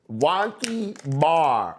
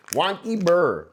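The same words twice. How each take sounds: First: Said in the usual way. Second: "Wonky burr" with "bar" bent into "burr"; silly mispronunciation. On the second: Shown as a demonstration. Streamer to chat, jokingly renaming the strain with a goofy "burr". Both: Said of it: "You wanna see the wonky burr?".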